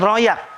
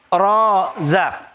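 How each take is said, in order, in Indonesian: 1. Huruf tengahnya bunyi y. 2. Huruf tengahnya bunyi z. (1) "bukan royak" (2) "Ro, rozak"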